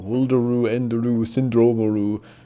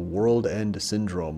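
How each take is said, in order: First: It is said with Japanese-style added vowel endings. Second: It is said with plain English pronunciation.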